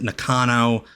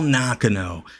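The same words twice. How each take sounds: First: The name is said in an American way. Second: The name is said in a Japanese-style way. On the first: "Americans normally pronounce it" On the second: "I believe that's the actual pronunciation"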